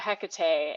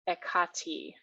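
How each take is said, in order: First: The name starts with an h sound. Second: The name starts with a vowel sound.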